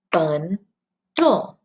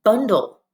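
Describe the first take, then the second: First: "Bundle" split into bun, then dull; clapped syllables. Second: Said in the usual way. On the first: Shown as a demonstration. Teacher clapping syllables with pupils, "Bundle" as bun - dull. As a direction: break "Bundle" in two with a clear gap. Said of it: "Let's clap the syllables".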